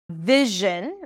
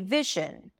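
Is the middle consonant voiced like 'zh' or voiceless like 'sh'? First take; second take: zh; sh. First: The middle consonant is a voiced 'zh' sound. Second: The middle consonant is a voiceless 'sh' sound. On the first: The speaker calls it right. "As in vision" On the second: The speaker calls it wrong. "Turn the j sound into sh"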